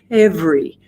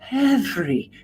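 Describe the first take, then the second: First: Breath and voice start together at once. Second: Breath is heard before the voice starts. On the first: "simultaneous, where the air and the vocal folds begin together" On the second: "aspirate. That means that the air begins before the vocal folds start"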